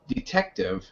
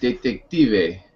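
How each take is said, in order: First: The word is pronounced the English way. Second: The word is pronounced the Spanish way. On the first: "En inglés es la misma palabra, pero es detective" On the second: "En español es detective"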